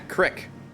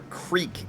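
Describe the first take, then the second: First: The word has a short 'ih' vowel. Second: The word has a long 'ee' vowel. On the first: "That Midwest pronunciation" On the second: "if you prefer"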